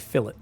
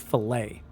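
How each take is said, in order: First: It has the speaker's own non-American pronunciation. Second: It has an American, French-style pronunciation.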